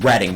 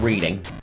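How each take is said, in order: First: The first vowel sounds like in 'red'. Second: The first vowel sounds like in 'reed'. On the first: The speaker calls it right. "it's pronounced reading" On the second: The speaker calls it wrong. "not reading"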